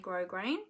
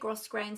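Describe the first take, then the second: First: No S sound is heard after the O. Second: An S sound is heard after the O. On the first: "some people don't pronounce the S" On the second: "Some people say grosgrain"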